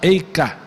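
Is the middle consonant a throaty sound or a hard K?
hard K. The middle consonant is a hard K sound. "Se você for para a Europa, por influência alemã, polaca, Yiddish, eles vão falar Eika"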